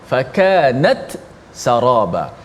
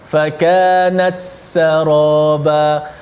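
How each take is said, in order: First: The t is released clearly before the s. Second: The t is absorbed into the following s. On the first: The speaker calls it right. "membaca dengan izhar, maksudnya dijelaskan ta mati" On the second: The speaker calls it wrong. "Seolah-olah bunyi ta tu dah dimasukkan ke dalam sin"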